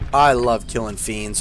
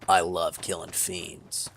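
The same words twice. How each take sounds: First: It is said in his own normal voice. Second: It is said in a Spike Spiegel voice.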